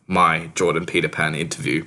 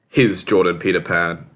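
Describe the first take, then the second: First: Weight on "my", as a correction; stress on my. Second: Weight on "his", naming another's show; stress on his. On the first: New occupant claims the show, corrective stress on "my". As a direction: lean on "my" to fix the slip. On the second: New occupant of host's body slips up, stress on "his". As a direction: lean on "his" before the name. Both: Acted. Self-correction, his against my.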